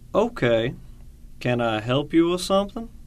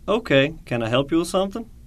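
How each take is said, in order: First: It is said slowly. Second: It is said at normal speed.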